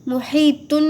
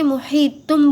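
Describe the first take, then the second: First: محیطن closed on a held N, "muheetunn"; wrong N ending. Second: محیطم closed on a held hummed M, "muheetumm"; M ending. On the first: Teacher showing learners what to avoid, ending in N. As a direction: end محیطن with the tongue-tip N. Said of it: "محیطن نہیں بولیں گے". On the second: Teacher showing tanween turned to meem, ending in M. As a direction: shut the lips on the end of محیطم. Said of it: "محیطم بولیں گے". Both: Shown as a demonstration.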